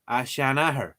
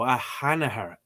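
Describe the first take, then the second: First: "Shanahar" with sh, not a bare h; school pronunciation. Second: "Hanahar" with h in place of sh; app's pronunciation. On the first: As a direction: say "Shanahar" opening on a sh sound. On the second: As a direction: say "Hanahar" opening on a breathed h. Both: Shown as a demonstration. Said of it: "I was taught to say a Shanahar".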